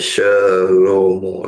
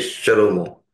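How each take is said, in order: First: The vowel after the first sound is full. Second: The vowel after the first sound is very short. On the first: The speaker calls it wrong. "Bukan Shalomo" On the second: The speaker calls it right. "pembacaannya sangat pendek"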